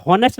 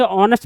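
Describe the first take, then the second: First: हॉनेस्ट with a sounded h at the start; wrong pronunciation. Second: ऑनेस्ट with a silent h, starting straight on the o; correct pronunciation. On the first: Teacher showing students the wrong way with the h sounded. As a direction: say हॉनेस्ट with a breathy h before the o. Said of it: "हॉनेस्ट नहीं है". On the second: Teacher showing students the right way with a silent h. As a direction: say ऑनेस्ट opening on the vowel, no h. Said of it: "ऑनेस्ट पढ़ा जाता है". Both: Shown as a demonstration.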